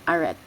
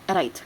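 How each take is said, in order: First: The word is said with an English pronunciation. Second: The word is said with a French pronunciation. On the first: "When we read it in in English pronunciation" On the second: "if we read this into a French pronunciation"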